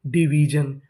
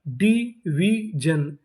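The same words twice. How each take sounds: First: Said in the usual way. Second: division very slow as डी, वी, जन; syllable by syllable. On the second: Shown as a demonstration. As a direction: sound out division with gaps between syllables. Teacher sounding out new word.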